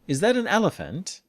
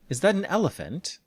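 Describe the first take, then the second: The two takes are said the same way.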